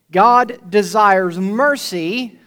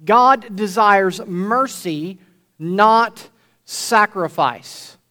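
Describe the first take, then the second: First: "God desires mercy" said very slowly, weight on "God"; slow emphatic statement. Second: "God desires mercy, not sacrifice" very slow, "not" hit hard; slow emphatic repeat. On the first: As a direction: lay down the point slowly and firmly. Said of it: "preacher states first point". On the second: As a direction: drive it home word by word. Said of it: "repeats point". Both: Shown as a demonstration.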